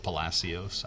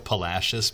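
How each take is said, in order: First: Palacios said puh-LASS-ee-ohs; Palacios as spelt. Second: Palacios the local way, puh-LASH-us. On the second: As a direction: say Palacios with a sh in the middle. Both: Shown as a demonstration. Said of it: "but it looks like Palacios".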